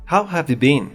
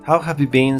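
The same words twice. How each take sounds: No difference in how they are said.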